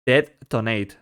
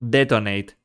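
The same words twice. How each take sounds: First: Robot voice. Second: Flat synthetic text-to-speech voice; robot voice. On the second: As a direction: read it like a typed computer voice. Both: Shown as a demonstration. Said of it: "Type detonate".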